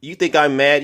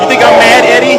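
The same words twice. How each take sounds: First: Said in the usual way. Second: Shouted at Eddie, much higher and louder; angry shout. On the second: Real, not acted. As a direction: yell the taunt at him full force.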